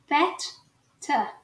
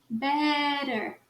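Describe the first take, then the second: First: The middle consonants are crisp, explosive t sounds. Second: The middle consonant is a soft r-like tap. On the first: "a gente vai falar os dois T's" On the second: "Você coloca um R ao invés"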